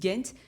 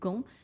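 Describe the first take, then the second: First: The name is said with an English pronunciation. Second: The name is said with a French pronunciation. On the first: "les Anglais disent Ghent" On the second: "les Français disent Gand"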